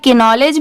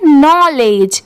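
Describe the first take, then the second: First: The word starts with a K and a vowel. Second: The word starts with an N sound. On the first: The speaker calls it wrong. "But नहीं, यहाँ पर के letter silent है" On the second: The speaker calls it right. "इसे पढ़ेंगे नॉलेज"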